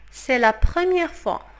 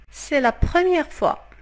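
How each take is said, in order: Both takes have the same delivery.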